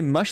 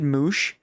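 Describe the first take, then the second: First: The vowel is short, as in 'bush'. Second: The vowel is long, as in 'moose'. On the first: The speaker calls it right. "We say mush like bu bush" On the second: The speaker calls it wrong. "Remember when I said moosh?"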